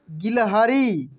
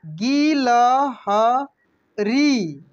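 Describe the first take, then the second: First: A bit slow. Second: गिलहरी drawn out very slowly, each syllable separate. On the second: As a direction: sound out गिलहरी slowly for learners. (गिलहरी को अक्षर अक्षर धीरे बोलिए) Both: Shown as a demonstration. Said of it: "इसके बाद देखेंगे यहाँ पे".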